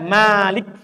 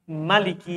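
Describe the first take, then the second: First: The first vowel is drawn out long. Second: The first vowel is short and quick. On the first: "Isi panjang" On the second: "Bisa dibaca cepat"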